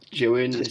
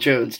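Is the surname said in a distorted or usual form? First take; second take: distorted; usual. First: The surname is said in a distorted form. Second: The surname is said in its usual form. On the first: The speaker calls it wrong. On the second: The speaker calls it right. "My name is [name]"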